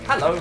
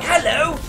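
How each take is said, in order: First: It is said in a plain, ordinary accent. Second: It is said in an exaggerated posh English accent. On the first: "in the regular voice" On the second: "[name] levels of English"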